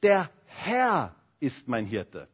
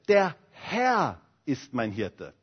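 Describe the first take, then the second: First: The stress is on "Herr". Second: The same.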